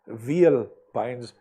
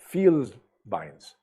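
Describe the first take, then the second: First: The word is pronounced the English way. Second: The word is pronounced the German way. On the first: The speaker calls it wrong. "you pronounce this not as Vielbeins" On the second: The speaker calls it right. "you call it Vielbeins ... that's the way the Germans have it"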